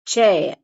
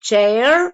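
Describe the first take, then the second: First: சேர் ending on an open vowel, falling; R dropped. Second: சேர் with the final r sounded, rising; R pronounced. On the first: Teacher showing learners the other option, r left silent. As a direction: let the r of சேர் vanish. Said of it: "விட்டுறதுனால விட்டுறலாம்". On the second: Teacher showing the optional r to learners, r sounded. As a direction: finish சேர் on an audible r. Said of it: "ஆர் உச்சரிச்சா உச்சரிக்கலாம்". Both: Shown as a demonstration.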